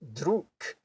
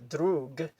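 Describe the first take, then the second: First: The word ends with an unvoiced K sound. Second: The word ends with a voiced G sound. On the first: The speaker calls it right. "it's pronounced druk" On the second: The speaker calls it wrong. "this is not actually pronounced"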